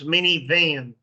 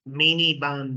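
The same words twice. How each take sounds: First: The middle consonant is made with teeth on lip. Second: The middle consonant is made with both lips. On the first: The speaker calls it right. "but in English, it's minivan with a v, v sound" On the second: The speaker calls it wrong. "In Spanish, a lot of people say minivan"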